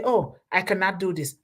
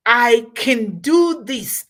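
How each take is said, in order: First: Mild mock defeatism; defeatist attitude. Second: Loud, slow, determined declaration; can-do attitude. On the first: Speaker mimicking the wrong spirit for a task, mildly defeatist. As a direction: lightly imitate someone giving up. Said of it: "that's not the spirit". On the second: Acted. Speaker showing how to approach a task, determined can-do. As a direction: stretch it out with confident force.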